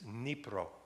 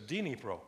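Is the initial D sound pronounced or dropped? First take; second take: dropped; pronounced. First: The initial D sound is dropped. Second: The initial D sound is pronounced. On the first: The speaker calls it right. "you drop the D, it's Dnipro" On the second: The speaker calls it wrong. "it says Dnipro"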